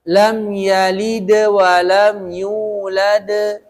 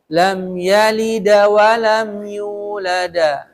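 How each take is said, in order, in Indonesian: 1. Konsonan akhir memantul menjadi schwa yang pendek. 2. Konsonan akhir memantul menjadi vokal 'a' yang jelas. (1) "Jadi pakai e" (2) "Ada yang begitu bacanya. Nggak boleh"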